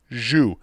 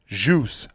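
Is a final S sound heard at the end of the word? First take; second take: no; yes. First: The word ends without any S sound. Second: The word ends with an audible S sound. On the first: The speaker calls it right. "the proper pronunciation is a silent S" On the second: The speaker calls it wrong. "not phonetically jus"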